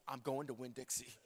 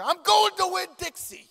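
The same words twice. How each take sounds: First: Low, soft, matter-of-fact repeat; soft low Winn-Dixie reply; quiet. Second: Loud, high, laughing insistence; high laughing declaration of going to Winn-Dixie; insistent. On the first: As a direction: drop it down, calmly stubborn. Repeating it to his wife. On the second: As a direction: plant your feet and announce it, half laughing. Insisting to his wife. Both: Retold or imitated.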